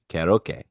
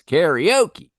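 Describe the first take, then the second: First: It is said with Japanese-style vowels and syllables. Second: It is said with American English vowels and stress. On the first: "That is how you pronounce it over in Japan" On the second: "it comes over to the States and it's karaoke"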